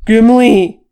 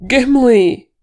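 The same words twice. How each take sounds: First: Full-force, very loud call of GIMLI, raised pitch; shouted. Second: High, loud, involuntary cry of the name GIMLI; choked cry. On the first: Thorin calling for his buried kinsman, full shout. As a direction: shout "Gimli" to carry across the slope. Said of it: "Thorin shouted". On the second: Thorin seeing the avalanche swallow the Fellowship, choked cry. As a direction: let "Gimli" burst out in distress. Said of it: "he choked before he could stop himself". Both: A narrator's reading.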